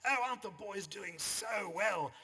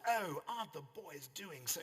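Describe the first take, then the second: First: High, loud, slow gushing society mother; rowing mum gushing over the boys, hammed-up posh. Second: A lightly voiced posh society mother, a bit higher; hint of a gushing Sydney mum; posh North Shore mum. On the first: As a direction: overdo the plummy North Shore mother. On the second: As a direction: start the gushing mum's line, then break off. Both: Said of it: "'cause women spoke like that in those days".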